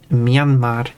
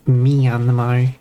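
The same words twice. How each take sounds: First: The name is said in two syllables. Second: The name is said in three syllables. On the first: The speaker calls it right. "It's two syllables. It's it's Myan, like a cat" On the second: The speaker calls it wrong.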